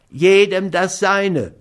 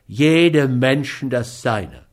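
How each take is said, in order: First: High, slow, louder protest; whiny dog owner, insisting. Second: Firm reply at an everyday pitch; measured rejoinder. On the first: Schmidt claims his due from Scott, whiny. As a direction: insist on it slowly in a high, plaintive voice. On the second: Scott answers Schmidt while paying him, firm and measured. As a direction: echo the saying back in a steady, unraised voice. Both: A narrator's reading.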